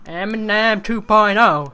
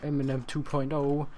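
First: Higher and louder, landing the joke; hyped punchline. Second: Said in the usual way. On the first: Shown as a demonstration. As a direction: announce it like a hype man. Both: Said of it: "repeated as punchline".

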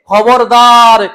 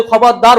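First: খবরদার stretched out very slowly and said loud; stern warning. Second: Said in the usual way. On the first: Acted. Preacher warns the listeners.

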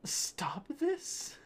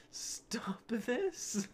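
First: High, rising, airy question on THIS; high-pitched bewildered read; incredulous reading. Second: High, airy read breaking into laughter; high whispery voice, cracking up; laughing repeat. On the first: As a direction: squeak it out as a baffled question. Reading a meme aloud incredulously. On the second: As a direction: say it again through giggles. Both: Acted.

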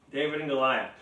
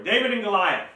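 First: Said in the usual way. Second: Announced. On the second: Shown as a demonstration.

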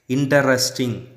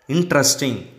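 First: "interesting" in four syllables, "in-ter-res-ting"; wrong INTERESTING. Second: "Interesting" in three syllables, "in-tres-ting"; correct INTERESTING. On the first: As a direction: sound every vowel in "interesting". ("interesting" mispronounced as "in-tuh-res-ting") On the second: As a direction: drop the middle vowel of "Interesting". ("Interesting" said "IN-tres-ting") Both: Shown as a demonstration. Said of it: "It's wrong".

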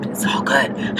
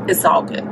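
First: A soft whispered echo of the line; whispered repeat. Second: Said in the usual way. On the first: Real, not acted. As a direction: breathe it again as a whisper. Said twice, second whispered.

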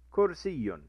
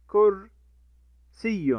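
First: Said in the usual way. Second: كرسي drawn out very slowly with "-un" at the end; stretched demo word. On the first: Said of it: "بالضم يكون تنوين". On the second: Shown as a demonstration. Teacher stretching the example word for children, very slow. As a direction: hold every sound of كرسي. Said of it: "بالضم يكون".

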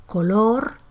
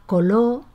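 First: Said in the usual way. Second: "coló" for color, ending on the open vowel; dropped final R. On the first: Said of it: "en lugar de color". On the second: Shown as a demonstration. Teacher demonstrating lost R, "coló" without final R. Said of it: "se pronuncia coló".

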